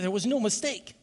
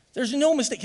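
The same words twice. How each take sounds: First: Raised, building preacher's voice, no single word hit hard; rising preaching. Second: "no" hit high and loud in a full preaching cry; stress on no. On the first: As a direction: start to climb into the preach, high but not yet full force. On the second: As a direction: punch "no" hard, voice up and loud. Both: Real, not acted.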